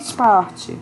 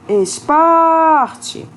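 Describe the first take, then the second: First: The word is said plainly, stress misplaced. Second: The word is called out, stressed syllable drawn out. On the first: The speaker calls it wrong. "Você não fala assim" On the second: The speaker calls it right. "Você fala esporte"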